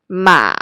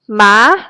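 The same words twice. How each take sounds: First: The pitch dips low and then rises again. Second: The pitch rises from middle to high. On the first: "it starts in the middle and drops down, reach your lowest voice range, and goes back up again" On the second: "it is represented by a rising accent mark over the vowel"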